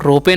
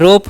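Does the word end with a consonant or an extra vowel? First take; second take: extra vowel; consonant. First: The word ends with an extra vowel sound. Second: The word ends on a plain consonant. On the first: The speaker calls it wrong. "रोपे नहीं पढ़ेंगे" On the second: The speaker calls it right. "इसे हम लोग पढ़ेंगे रोप"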